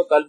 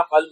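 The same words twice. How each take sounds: First: "قلب" begun on a plain k; kaf instead of qaf. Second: "قلب" begun on a uvular q; two-dot qaf. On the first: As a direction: mispronounce "قلب" as kalb. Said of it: "کھڑے کاف سے پڑھا". ("قلب" کھڑے کاف سے، کلب) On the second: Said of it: "دو نقطے والا قاف سے اگر پڑھا". ("قلب" دو نقطے والے قاف سے) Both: Shown as a demonstration.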